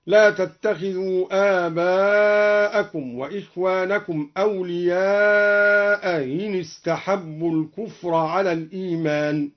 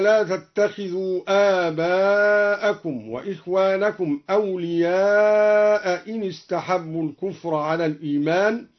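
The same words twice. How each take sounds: First: أولياء إن with the second hamza softened; eased hamza. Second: Said in the usual way. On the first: Shown as a demonstration. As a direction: glide the hamza between أولياء and إن. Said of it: "بتسهيل الهمزة الثانية هكذا". (تسهيل الهمزة الثانية في أولياء إن) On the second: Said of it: "قرأ الدوري بتسهيل الهمزة الثانية هكذا".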